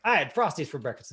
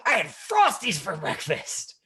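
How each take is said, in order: First: Said in the usual way. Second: Line said high, loud and slow with glee; excited line reading. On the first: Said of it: "and not changing it". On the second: Retold or imitated. Imitating a student now delivering the line with excitement. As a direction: carry the thrill into the line. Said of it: "Say the line like you said that".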